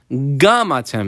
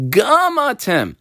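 First: Said in the usual way. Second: Gam lifted high and drawn out slowly, then Atem; stress on Gam. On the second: Shown as a demonstration. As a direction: lean hard on "Gam", sing it up high and slow. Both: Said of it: "That word Gam".

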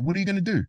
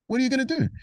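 First: Said in the usual way. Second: What are you gonna do, pitched higher and pressed; emphatic repeat. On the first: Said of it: "first take". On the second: Real, not acted. Pressing the listener with the repeated question, emphatic. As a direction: push the question harder the second time. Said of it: "repeats question for emphasis".

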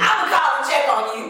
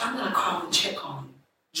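First: Put-on fast, high drunken promise; drunk woman. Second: Said in the usual way. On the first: Drunk woman promising to check on her, fast drunken holler. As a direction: imitate her drunk talk, rushed and raised. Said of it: "Drunk still. I'm not talking like she's talking". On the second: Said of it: "I'm not talking like she's talking".

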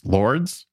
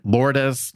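First: "Lords" as one syllable, questioning; one-syllable name attempt. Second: "Lordess" in two syllables; two-syllable name attempt. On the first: Host unsure of an actress's name, "Lords" as one rising syllable. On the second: Host trying an actress's name, "Lordess" in two syllables. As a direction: say "Lordess" with a second syllable, -ess. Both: Shown as a demonstration.

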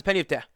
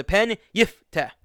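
First: Pen Yivteh run together, the gap between Pen and Yivteh swallowed; Pen Yivteh said quickly as one blurred word; fast, slurred reading. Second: Pen Yifteh with each word kept separate and clear; careful enunciation. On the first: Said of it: "if you read really fast". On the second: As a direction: say Pen Yifteh crisply, two distinct words. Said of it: "But rather". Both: Shown as a demonstration.

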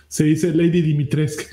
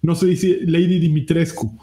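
First: Dimitrescu cut short to "Dimitresk"; silent final U. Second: Dimitrescu ending in a full "-cu"; final U pronounced. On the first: Friend correcting the podcast, Dimitrescu ending on a K sound. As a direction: drop the last vowel of Dimitrescu. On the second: Friend quoting the wrong name from the podcast, Dimitrescu with final U. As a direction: sound the last vowel of Dimitrescu. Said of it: "están diciendo mal en el podcast el nombre". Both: Retold or imitated.

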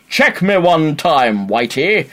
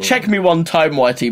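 First: Put-on light Jamaican accent, slow and cool; a lightly voiced Jamaican yardie swagger; mock Jamaican accent. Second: A hint of the Jamaican accent, quick; tossed-off yardie quote in a faint Jamaican accent; lightly mock Jamaican accent. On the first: Fast Show yardie in a light Jamaican accent. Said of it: "walks in past them and goes". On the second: Quoting the favourite line in a faint Jamaican accent. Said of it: "makes me laugh my head off".

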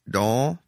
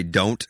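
First: "don't" cut to "doh", final T left off; T dropped. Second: Said in the usual way. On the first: Shown as a demonstration. Showing the host how it works, T dropped. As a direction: say don't with no T at the end, pitched up. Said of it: "take the T out of every". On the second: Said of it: "Like when you say".

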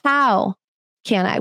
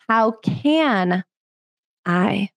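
First: "How" lifted and pushed, then a pause before "can I?"; emphasis on "How" in "How can I?"; stress on How. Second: "can" emphasised, "I?" set apart after a pause; stress on can. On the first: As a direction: lean on "How", let "can I?" drop away. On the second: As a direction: hang on "can", wait, then drop "I?". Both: Shown as a demonstration. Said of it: "Which syllable do you want to emphasize?".

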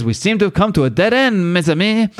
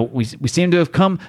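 First: Higher-pitched mock French accent. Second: Said in the usual way. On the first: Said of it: "Frenchie says". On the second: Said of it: "he says, you know".

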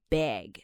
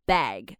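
First: Canadian "bag" with a raised vowel, close to "beg"; Canadian accent. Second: American "bag" with a wide flat a, like "baag"; American accent. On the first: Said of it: "加拿大人可能讲bag". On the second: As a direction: say "bag" the American way, open æ vowel. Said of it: "美国人可能讲bag". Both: Shown as a demonstration.

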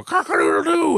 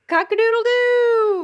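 First: High crowing cock-a-doodle-doo; rooster crowing. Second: High, slow rooster crow. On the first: Shown as a demonstration. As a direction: crow it like a rooster. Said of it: "you have to go". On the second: Pretend. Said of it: "doing a rooster sound".

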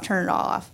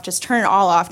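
First: A doctor giving up on the device, whispering the order; whispered trail-off. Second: Said in the usual way. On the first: Retold or imitated. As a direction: repeat it softer, fading to a whisper.

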